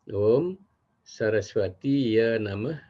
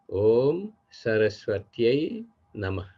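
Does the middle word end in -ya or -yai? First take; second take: -ya; -yai. First: The middle word ends with a plain -ya sound. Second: The middle word ends with a -yai sound. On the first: The masculine form is wrongly used for a goddess. The speaker calls it wrong. "bukan seperti itu" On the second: The feminine form suits a goddess. The speaker calls it right.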